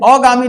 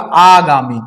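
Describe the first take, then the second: First: The first vowel is a short a. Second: The first vowel is a long aa. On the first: The speaker calls it wrong. "अगामी नहीं होता, ये अशुद्ध है" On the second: The speaker calls it right. "शुद्ध क्या होगा?"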